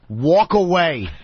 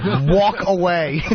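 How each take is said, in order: First: Slow, flat "walk away"; curt brush-off. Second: "walk away" slowed and laughing; laughing brush-off. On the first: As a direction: dismiss him without looking up. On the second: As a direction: say it slowly through laughter. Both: Retold or imitated. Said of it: "he just went".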